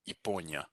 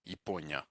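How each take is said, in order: First: The first vowel is a reduced 'ee' sound. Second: The same.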